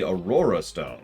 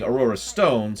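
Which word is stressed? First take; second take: Aurora; Stones. First: The stress falls on the word Aurora. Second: The stress falls on the word stones. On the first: The speaker calls it right. "it should be on Aurora" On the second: The speaker calls it wrong. "The emphasis shouldn't be on stones"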